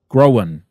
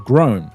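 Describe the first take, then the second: First: An extra schwa vowel comes before the final n. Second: It is said as one syllable without extra vowel.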